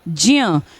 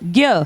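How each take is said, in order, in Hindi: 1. यह अक्षर j plus y की तरह बोला जाता है। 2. यह अक्षर j plus y की तरह नहीं बोला जाता। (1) "आधा ज इसमें आता है और य इसमें आता है" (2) "बोलते हम बचपन से ऐसे ही आए हैं"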